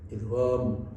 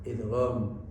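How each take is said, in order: Both takes have the same delivery.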